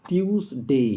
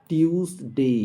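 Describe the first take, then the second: No difference in how they are said.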